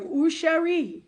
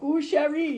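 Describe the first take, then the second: First: Mock French flirt. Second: Put-on old-world French joke. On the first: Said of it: "they're going". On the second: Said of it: "like that old world French joke".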